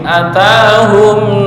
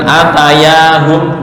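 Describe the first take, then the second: First: The ta is long with no y sound. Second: A y sound is inserted after the ta. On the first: The speaker calls it right. "Atahum ta sini panjang" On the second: The speaker calls it wrong. "bukan atayahum"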